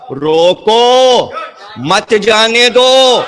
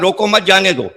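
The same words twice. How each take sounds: First: The pause comes after 'roko'. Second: The pause comes after 'mat'.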